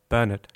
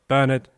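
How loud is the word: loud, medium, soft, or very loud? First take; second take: medium; loud. First: The word is said at medium volume. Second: The word is said loudly.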